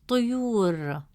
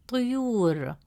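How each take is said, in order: Both takes have the same delivery.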